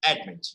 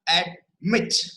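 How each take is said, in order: First: The stress is on the first syllable. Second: The stress is on the second syllable. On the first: The speaker calls it right. "we are applying the force and ad, a, admit" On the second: The speaker calls it wrong. "We are not pronouncing as admit"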